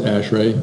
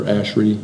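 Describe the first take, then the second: First: "ashray" ending in a clear "ray"; first pronunciation variant. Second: "ashray" with the ending said "ree"; alternative pronunciation. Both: Shown as a demonstration. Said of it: "People pronounce it both, both ways".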